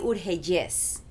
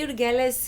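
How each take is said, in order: First: The double L is said like a Y. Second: The double L is said as a plain L. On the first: This is the name's real pronunciation. The speaker calls it right. "but it's really Urgelles" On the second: This is how most people in America say it. The speaker calls it wrong. "that's how most people pronounce it in, in America"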